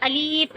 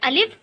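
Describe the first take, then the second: First: The word is drawn out slowly. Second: The word is said quickly. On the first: The speaker calls it wrong. "Alif इस तरीके से नहीं करना है" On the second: The speaker calls it right. "अलिफ को हमें जल्दी पढ़ना है"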